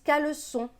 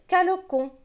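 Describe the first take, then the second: First: The middle consonant is a soft s sound. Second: The middle consonant is a hard k sound. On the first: The speaker calls it right. "On veut qu'il se prononce caleçon" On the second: The speaker calls it wrong. "s'il n'y avait pas cette cédille"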